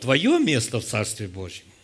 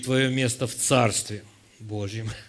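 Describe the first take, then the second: First: It is said with a questioning intonation. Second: It is said with an affirming statement intonation. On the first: It asks where one's place in the Kingdom is. "Вы можете принять это как вопрос" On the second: It asserts that one has a place in the Kingdom. "А можно утвердить"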